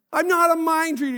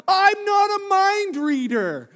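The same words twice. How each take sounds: First: Said in the usual way. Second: Slow, high, loud protest, each word dragged out; exasperated shout. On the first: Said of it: "repeated to the congregation". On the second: Retold or imitated. Husband protesting to his wife, slow exasperated shout. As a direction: shout it slowly at her. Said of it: "I'm like".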